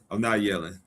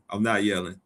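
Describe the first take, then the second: No difference in how they are said.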